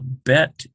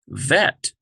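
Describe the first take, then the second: First: It starts with a hard B sound. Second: It starts with a soft V sound. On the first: "bet equals B" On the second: "but vet equals V"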